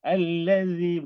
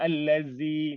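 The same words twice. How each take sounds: First: The middle consonant is soft and lightly touched. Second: The middle consonant is pressed hard against the teeth. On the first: The speaker calls it right. "ringankan dia. Jangan tekan" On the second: The speaker calls it wrong. "Banyak orang baca allazi kan, macam sedap bunyi tapi salah tu"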